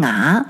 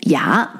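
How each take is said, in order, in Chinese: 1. 这个字开头是裸元音。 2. 这个字开头是 y 音。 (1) "但是武汉人发成啊" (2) "普通话的发音"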